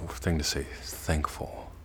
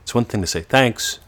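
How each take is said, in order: First: Thankful said much softer and inward. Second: Thanks said higher and louder, rising; outward thanks. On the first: Teacher contrasting thankful with thanks, soft inward. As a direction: let thankful sink inside. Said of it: "It's another". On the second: Teacher contrasting thanks with thankful, outward. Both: Shown as a demonstration.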